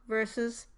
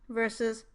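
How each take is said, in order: No difference in how they are said.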